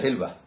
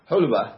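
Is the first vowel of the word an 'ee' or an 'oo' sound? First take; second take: ee; oo. First: The first vowel sounds like 'ee'. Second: The first vowel sounds like 'oo'. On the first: This is the commonly accepted form. "המקובל בדרך כלל זה חילבה" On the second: This is the form Arabs use. "הסגנון שרעבים אומרים חולבה"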